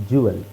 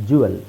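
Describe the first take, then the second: No difference in how they are said.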